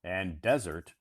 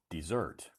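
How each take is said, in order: First: Desert stressed on the first syllable, DEZ-ert; desert demo. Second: Desert stressed on the second syllable, de-ZERT; second pronunciation of desert. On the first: Teacher modelling desert for live-stream learners. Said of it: "usually is pronounced desert". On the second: Teacher showing viewers the verb desert. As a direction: say desert with the weight at the end. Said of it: "has a second pronunciation called desert". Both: Shown as a demonstration.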